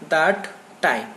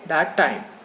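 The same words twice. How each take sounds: First: The two words are separated by a pause. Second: The two words are linked without a pause. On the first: The speaker calls it wrong. "You don't have to take pauses. That time, you don't have to say like that" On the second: The speaker calls it right. "you have to say that time"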